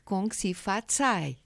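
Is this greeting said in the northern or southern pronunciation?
northern. It is said with the northern, Mandarin pronunciation. "na pronúncia do Norte"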